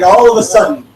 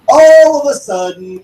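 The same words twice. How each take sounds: First: Said in the usual way. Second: "all of a sudden" slower, higher and louder; emphatic repeat. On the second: Real, not acted. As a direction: stretch out "all of a sudden" for effect. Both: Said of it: "repeats for emphasis".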